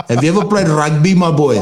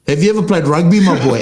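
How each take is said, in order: First: Light mock Afrikaans accent on the quote; a hint of an Afrikaans accent, teasing the commenter; imitating an Afrikaans rugby fan with a light Afrikaans accent. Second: Said in the usual way. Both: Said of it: "I literally said it in an Afrikaans accent".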